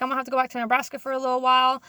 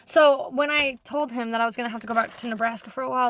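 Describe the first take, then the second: First: Rattled off fast; fast casual retelling to the boss; quick quote. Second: Said in the usual way. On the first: Retold or imitated. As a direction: rush through the line. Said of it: "I was like".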